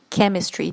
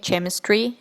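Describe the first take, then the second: First: The word begins with a K sound. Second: The word begins with a non-K sound. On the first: The speaker calls it right. "должно произноситься как chemistry через букву К" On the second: The speaker calls it wrong. "many people say chemistry"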